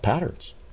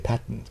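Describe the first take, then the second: First: The word is said in an American accent. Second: The word is said in a British accent.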